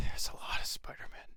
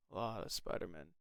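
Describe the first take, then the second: First: Whisper. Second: Muttered. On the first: Sighs then says it. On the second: Repeats under breath. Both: Real, not acted.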